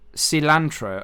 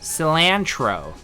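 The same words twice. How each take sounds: First: It is said in the speaker's own non-American accent. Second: It is said in an exaggerated American accent.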